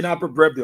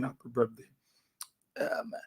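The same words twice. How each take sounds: First: Said in the usual way. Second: Almost whispered, much softer; hushed birthday wish. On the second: Retold or imitated. Father relays the siblings' wish to his son in a hush. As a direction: breathe the wish out quietly.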